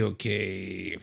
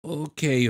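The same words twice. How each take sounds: First: Quieter okay. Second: Said in the usual way. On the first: Real, not acted. Settles after a long pause.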